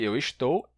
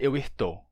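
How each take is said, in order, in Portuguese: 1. O s em "estou" soa como s. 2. O s em "estou" soa como r. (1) "Existe eu estou" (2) "Não pode ser eu estou"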